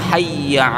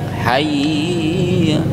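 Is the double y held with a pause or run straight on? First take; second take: straight; pause. First: The double y runs straight on without pausing. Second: The double y is held with a pause. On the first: The speaker calls it right. "langsung begitu" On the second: The speaker calls it wrong. "jeda kayak ada panjang dulu"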